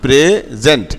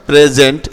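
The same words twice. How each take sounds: First: "প্রেজেন্ট" drawn out as pre, zent; syllable by syllable. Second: Said in the usual way. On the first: Shown as a demonstration. Teacher showing s sounds like z in present, syllable by syllable. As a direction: split "প্রেজেন্ট" before its z sound. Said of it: "জ এর মতো উচ্চারণ হয়েছে". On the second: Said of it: "এসটা কখন জ এর মতো হয়? দেখো".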